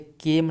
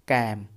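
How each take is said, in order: First: The vowel is a 'keh' sound, like 'kem'. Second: The vowel is an open 'a', like 'cam'. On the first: The speaker calls it wrong. "इसे केम नहीं पढ़ते" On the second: The speaker calls it right. "इसे हम pronounce जो करते हैं वो होता है कैम"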